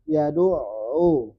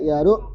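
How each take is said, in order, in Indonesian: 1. Bunyi ain tetap tersambung, tidak putus. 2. Bunyi ain terputus secara tiba-tiba. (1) "Harus nyambung" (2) "tidak boleh"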